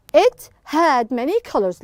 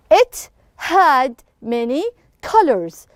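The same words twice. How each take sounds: First: Said in the usual way. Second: Each word set apart with short pauses; deliberate classroom model reading; slow word-by-word reading. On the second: Shown as a demonstration. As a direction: read it slowly, word by word, for a class. Teacher reads sentence out for class.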